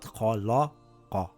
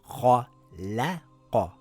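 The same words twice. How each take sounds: First: The l sound is pronounced heavy and deep. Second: The l sound is pronounced light and thin. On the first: The speaker calls it wrong. "not khalaqa" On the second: The speaker calls it right. "It is khalaqa"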